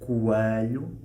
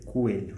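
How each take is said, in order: First: The stressed vowel sounds like a closed a. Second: The stressed vowel sounds like an e. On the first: "estou a pronunciar o E com o som do A fechado" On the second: "em teoria eu deveria dizer coelho"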